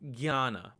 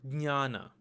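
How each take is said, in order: First: The word begins with a g-y sound. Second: The word begins with a d-n-y sound. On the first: This is how it is said in Hindi and Bengali. "this letter is pronounced as gya" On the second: This is how it is said in Marathi. "which is pronounced as dnya"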